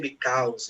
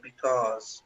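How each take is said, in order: First: The stressed vowel sounds like 'ow'. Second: The stressed vowel sounds like 'oh'. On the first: The speaker calls it wrong. "You don't say because" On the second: The speaker calls it right. "you say because"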